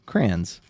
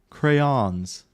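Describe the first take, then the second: First: Crayons clipped to one syllable, like crans. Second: Crayons split into two syllables, kray-ons. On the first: Streamer showing chat her own way, Crayons as crans. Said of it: "say words quick sometimes". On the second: Streamer copying how chat says it, Crayons as cray-ons. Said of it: "you guys said I say it like brains". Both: Shown as a demonstration.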